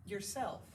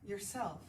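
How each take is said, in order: Both takes have the same delivery.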